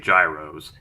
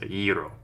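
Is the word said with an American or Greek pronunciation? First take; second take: American; Greek. First: It is said with the American pronunciation. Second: It is said with the Greek pronunciation. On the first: "I'm gonna go with the American one" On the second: "it's pronounced gyro"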